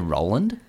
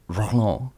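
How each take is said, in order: First: The name is said with an English pronunciation. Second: The name is said with a French pronunciation. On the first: The speaker calls it wrong. "And I just say Roland" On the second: The speaker calls it right. "His name's Roland"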